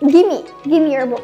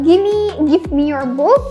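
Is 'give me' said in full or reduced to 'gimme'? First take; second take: reduced; full. First: Give and me are run together as gimme. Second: Give and me are said as two full words. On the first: "bisa ganti dengan give me your book ... Lebih cepat, lebih padat" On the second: "kalau misalnya teman-teman bilang give me your book"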